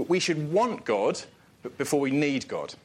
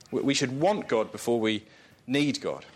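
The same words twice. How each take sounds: First: "want" slowed and lifted; stress on want. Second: "need" given a firm fall; "need" set down with a firm fall; stress on need. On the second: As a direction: land the word "need" with a firm drop. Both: Shown as a demonstration. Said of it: "repeated for emphasis".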